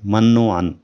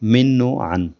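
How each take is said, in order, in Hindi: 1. पहले शब्द में 'a' स्वर है। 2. पहले शब्द में 'i' स्वर है। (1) "मिन की बजाय मन पढ़ा जाता है ... जो बिल्कुल गलत है" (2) "आज का तीसरा लफ्ज़ है मिन व अन"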